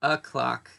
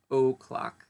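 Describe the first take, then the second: First: "o'clock" with a weak, schwa first vowel, uh-CLOCK; reduced o'clock. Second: "o'clock" with a full long OH first vowel; over-full o'clock. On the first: Teacher showing learners how we pronounce it usually, "o'clock" as uh-CLOCK. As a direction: say "o'clock" as a quick unstressed uh, then a strong CLOCK. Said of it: "we pronounce it". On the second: Teacher showing learners what is not usual, "o'clock" as a full OH-clock. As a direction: spell out the O in "o'clock" as OH-clock, unreduced. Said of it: "we pronounce it o'clock usually, not o'clock".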